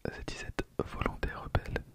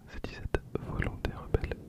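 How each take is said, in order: Both takes have the same delivery.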